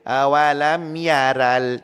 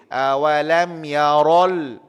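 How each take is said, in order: First: The r sound is pronounced light and thin. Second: The r sound is pronounced heavy and thick. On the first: The speaker calls it wrong. "Tak boleh" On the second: The speaker calls it right. "Ra atas ra tebal"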